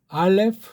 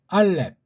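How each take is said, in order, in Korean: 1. 서양식 발음으로 말합니다. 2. 한국식 발음으로 말합니다. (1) "걔네식으로 한번 할까요?" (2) "이제 정음으로만 우리 한다고 했죠"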